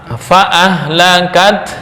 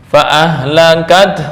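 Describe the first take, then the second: The two takes are said the same way.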